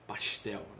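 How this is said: It is said with a Rio de Janeiro accent.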